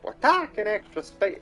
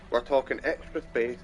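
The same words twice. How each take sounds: First: It is spoken in a Cockney English accent. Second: It is spoken in a plain, normal voice. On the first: "Keep doing a really Cockney English voice, but it's not working out well" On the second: "I'm just gonna do a normal voice here"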